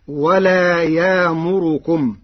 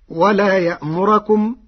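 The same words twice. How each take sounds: First: يامركم slowly with a long alif and raised ra; Warsh reading. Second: Said in the usual way. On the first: Shown as a demonstration. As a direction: say يامركم without hamza. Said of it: "برفع الراء والإبدال". (يامركم بالإبدال ورفع الراء) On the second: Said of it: "قرأ ورش ولا يأمركم".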